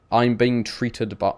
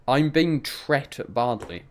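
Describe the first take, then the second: First: Treated with a full ee and -ed; treated spoken slowly and properly; saying treated. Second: Tret, short e like bet, slowly; saying tret. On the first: Trying the word chat suggests, treated. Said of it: "Just say it treated". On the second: Asking a friend if he says tret, slowly. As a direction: tret badly, drawn out, one syllable. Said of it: "Aiden, do you say tret?". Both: Shown as a demonstration.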